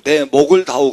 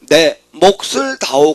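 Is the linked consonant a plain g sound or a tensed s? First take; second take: g sound; tensed s. First: The linked consonant is a plain g sound. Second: The linked consonant is a tensed s sound. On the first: The speaker seems to ask for a neck. The speaker calls it wrong. "목을이 훨씬 쉬워" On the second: The speaker asks for a share of the profit. The speaker calls it right. "반드시 된세로 올라붙여라"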